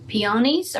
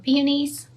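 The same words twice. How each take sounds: First: Peonies stressed on the second syllable, pee-OH-nees; alternate pronunciation. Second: Peonies stressed on the first syllable, PEE-uh-nees; alternate pronunciation. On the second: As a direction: say Peonies with a short, weak middle vowel, PEE-uh-nees. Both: Shown as a demonstration. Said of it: "never know how to say that right".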